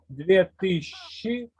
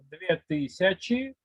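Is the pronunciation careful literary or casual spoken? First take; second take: casual; literary. First: It is pronounced casually, in an everyday way. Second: It is pronounced carefully, in a literary way. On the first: "on prononce toujours d'une façon parlée" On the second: "la prononciation littéraire"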